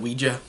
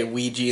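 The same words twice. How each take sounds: First: Ouija with a "juh" at the end; the movie's "wee-juh" way of saying Ouija. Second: Ouija with a "jee" at the end; the familiar "wee-jee" way of saying Ouija. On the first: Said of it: "instead of Ouija". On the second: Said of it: "I just like to say Ouija". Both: Shown as a demonstration.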